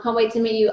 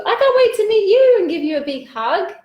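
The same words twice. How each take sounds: First: Said in the usual way. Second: Much higher, sing-out enthusiasm; gushing excitement. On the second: Real, not acted. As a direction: gush eagerly to a friend you long to hug. Eagerly answers viewer in own words.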